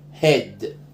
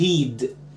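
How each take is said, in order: First: The vowel is a short e sound. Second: The vowel is a long ee sound. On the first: The speaker calls it right. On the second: The speaker calls it wrong.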